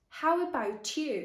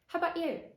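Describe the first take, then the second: First: Each word is said clearly and separately. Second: The words run together in reduced connected speech. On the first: "what you can often hear in textbooks is exactly this" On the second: "see if you can understand what I'm saying"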